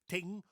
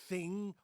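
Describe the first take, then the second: First: The word begins with a plain 't' sound. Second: The word begins with a 'th' sound. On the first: The speaker calls it wrong. "They say ting" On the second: The speaker calls it right. "A word like thing"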